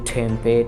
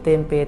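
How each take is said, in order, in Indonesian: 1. T-nya diucapkan tipis, seperti dalam bahasa Inggris. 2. T-nya diucapkan datar, seperti dalam bahasa Indonesia. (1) "T-nya itu pasti ditipisin gitu loh" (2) "mereka nggak bisa bilang kayak gitu"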